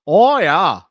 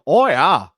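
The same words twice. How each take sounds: First: Second "Oh, yeah" in mock Minnesota, pushed louder; Minnesota accent. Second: Mock Minnesota "Oh, yeah", drawn out and a bit louder; Minnesota accent. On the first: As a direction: lean harder into the Minnesota "Oh, yeah". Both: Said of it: "They all talk like that".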